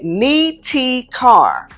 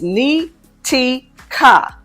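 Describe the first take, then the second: First: The last syllable sounds like the word car. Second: The last syllable is a short, weak kuh. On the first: "where you are literally using the English words ni and car" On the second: "Ka sounds like banker without the band"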